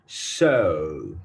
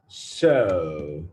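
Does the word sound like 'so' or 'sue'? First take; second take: so; so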